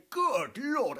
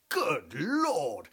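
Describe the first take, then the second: First: High, louder Good Lord; a wide-eyed twit exclaiming; Hastings. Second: Lightly voiced Hastings exclaiming; a hint of a dim English gent. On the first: Retold or imitated. Hastings gawping at racing cars, high excited exclamation. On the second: Comic aside mocking Captain Hastings, a mild mock exclamation. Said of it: "is to say".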